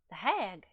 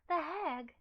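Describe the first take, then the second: First: It is said in a mismatched put-on voice. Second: It is said in the intended character voice. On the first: The speaker calls it wrong. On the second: The speaker calls it right.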